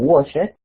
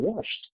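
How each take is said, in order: First: The ending is an extra syllable with a vowel. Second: The ending is a short T sound, no vowel. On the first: The speaker calls it wrong. "o wash it, eso no existe" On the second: The speaker calls it right. "como si fuera una T"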